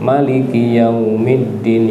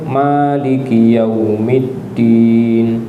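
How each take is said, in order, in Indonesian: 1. Vokal pertama pada maliki dibaca pendek. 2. Vokal pertama pada maliki dibaca panjang. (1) "bisa juga dibaca pendek" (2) "Bisa dibaca panjang"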